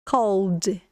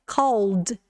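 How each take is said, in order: First: It is said as one syllable ending in d. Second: It is said as one syllable ending in d.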